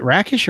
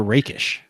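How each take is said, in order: First: Rakish with a short A, as in "rack"; first syllable of Rakish rhymes with "back"; short A pronunciation. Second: Rakish with a long A, as in "rake"; first syllable of Rakish rhymes with "break"; long A pronunciation. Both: Shown as a demonstration. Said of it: "Is it Rakish or Rakish?".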